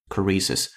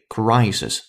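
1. 第一个元音是短的普通元音。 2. 第一个元音是滑动双元音。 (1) "not crisis" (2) "it should be crisis"

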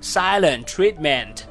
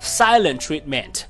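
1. silent 结尾的 t 要省略。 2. silent 结尾的 t 要省略。

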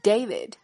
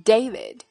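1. 第一个元音是字母名 A 的音。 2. 第一个元音是字母名 A 的音。

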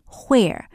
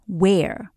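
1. 这个词开头是带气音的 hw 音。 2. 这个词开头是普通的 w 音。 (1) "你也会听到有些人说where" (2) "所以我们通常直接讲where"

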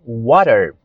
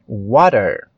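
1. O T é um tepe suave entre D e R. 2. O T é um tepe suave entre D e R.

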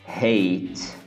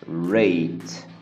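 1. O primeiro som é um h suave. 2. O primeiro som é um r inglês rouco. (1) "o brasileiro acaba falando" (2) "o correto seria"

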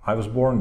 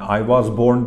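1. 'was' kelimesinin sesli harfi zayıf, indirgenmiş. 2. 'was' kelimesinin sesli harfi tam ve güçlü. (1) "diyoruz. Orada weak sound çıkıyor"

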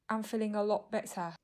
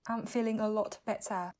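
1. Âm t trong 'lot' là glottal stop. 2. Âm t trong 'lot' được phát âm rõ ràng.

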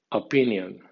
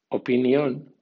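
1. Se lee con los sonidos y el acento del inglés. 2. Se lee con los sonidos de las letras del español. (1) "en pronunciación inglesa" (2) "como si fuera española"

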